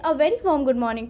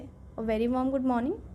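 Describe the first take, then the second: First: It is spoken fluently in an engaging way. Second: It is spoken slowly with many pauses. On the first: "दूसरे star अंदाज में ... engage लगा" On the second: "धीरे धीरे बोलें ... बहुत रुक रुक के बोल रहे हैं"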